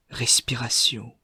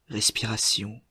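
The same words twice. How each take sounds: The two takes are said the same way.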